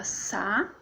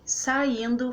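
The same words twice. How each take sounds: First: "saindo" as sa-in-do; pauses between sa, in and do in saindo; slow sa... in... do; syllable by syllable. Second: Said in the usual way. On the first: Shown as a demonstration.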